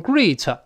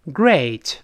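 First: "great" said wrongly as "greet", long ee vowel; mispronounced great. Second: "great" with a full ay diphthong, eh gliding to ih; correct vowel in great. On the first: Teacher mimics learners misreading the word, mispronounced "great" as "greet". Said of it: "好多人把它读成great". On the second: Teacher has students read aloud after him, clear ay in "great". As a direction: model "great" clearly, opening into the ay glide. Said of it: "不行，这是a". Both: Shown as a demonstration.

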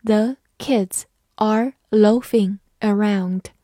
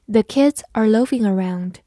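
First: Put-on slow, careful read of The kids are loafing around. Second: Said in the usual way. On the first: Shown as a demonstration. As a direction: read it slowly word by word. (慢慢地朗读) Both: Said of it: "好，慢慢来读。".

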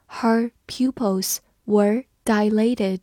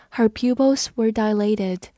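First: Slow, careful read of the sentence. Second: Said in the usual way. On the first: Shown as a demonstration. Teacher reading slowly for students to follow. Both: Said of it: "我们慢读一遍".

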